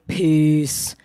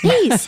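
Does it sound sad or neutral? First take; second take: sad; neutral. First: It sounds down and sad. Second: It sounds light and neutral.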